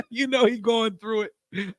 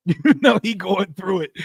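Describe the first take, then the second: First: Slow laughing. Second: Laughing. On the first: Repeats the line, drawn out. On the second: Laughing at a struggling rival. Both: Real, not acted.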